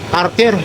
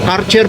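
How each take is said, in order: First: The name is said the Visayan way. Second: The name is said in its standard form. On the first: "Sa Bisaya" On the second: "O Karcher po yan ha"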